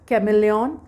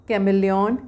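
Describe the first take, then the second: No difference in how they are said.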